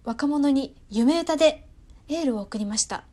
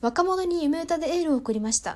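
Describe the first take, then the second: First: 夢歌 is emphasized with a second pitch peak. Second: 夢歌 gets no extra emphasis in one smooth arc.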